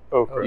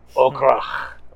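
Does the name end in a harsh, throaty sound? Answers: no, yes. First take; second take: no; yes. First: The name ends without any throaty sound. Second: The name ends in a harsh, throaty sound. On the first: The speaker calls it wrong. "You can't forget that" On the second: The speaker calls it right. "you have to put the phlegm in it"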